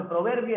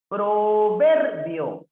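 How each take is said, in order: First: Said in the usual way. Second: "Proverbio" slow and loud, VER held high; stress on VER. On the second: Shown as a demonstration. Teacher showing a palabra grave, "Proverbio" slow with stressed VER. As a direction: stretch "Proverbio" hard on VER. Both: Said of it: "proverbio es grave".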